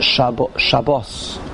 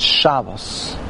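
First: The stress is on the last syllable. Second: The stress is on the first syllable. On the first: This is the Hebrew form. "In Hebrew, all the words are Milara. The end, the emphasis on the end" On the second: This is the Yiddish form. "All the words in Yiddish are Milael. The emphasis is on the first syllable"

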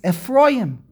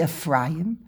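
First: The name is said in its end-of-verse form. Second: The name is said in its mid-verse form. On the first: The name ends the verse. "when it's the end of the pasuk, it's Ephraim" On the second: The name stands inside the verse. "It's HaBen Yakeli Ephraim"

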